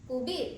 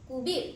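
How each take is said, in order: The two takes are said the same way.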